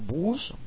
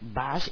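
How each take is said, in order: First: The vowel is a Spanish-like 'oo' sound. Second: The vowel is an English-like short 'uh' sound. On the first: The speaker calls it wrong. "y no bus" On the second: The speaker calls it right. "recordaros de decir bus"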